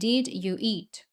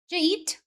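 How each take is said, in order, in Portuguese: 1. Cada palavra é dita separadamente, como um robô. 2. As palavras são ditas juntas, com os sons conectados. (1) "não falam assim, ... Parecendo um robô" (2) "Eles falam"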